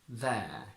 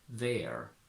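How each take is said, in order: First: Said in a British accent, R silent. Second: Said in an American accent, R pronounced. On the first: "From American to British" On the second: "From American to British"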